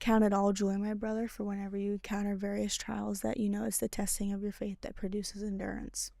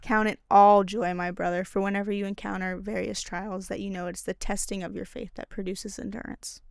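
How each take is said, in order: First: It is said at a quieter volume. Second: It is said at a louder volume.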